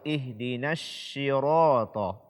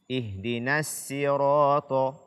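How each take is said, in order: First: The consonant is a hushing sh sound. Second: The consonant is a thin plain s sound. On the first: "atau shin" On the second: "mengganti huruf shad dengan sin"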